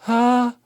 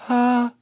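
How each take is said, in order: No difference in how they are said.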